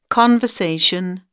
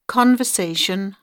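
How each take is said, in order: Both takes have the same delivery.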